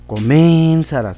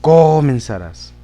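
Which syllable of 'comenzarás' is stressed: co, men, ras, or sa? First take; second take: men; co. First: The stress is on the second syllable, men. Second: The stress is on the first syllable, co. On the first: "la sílaba men, ... tampoco" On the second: "en la co, ... ahí no quedaría"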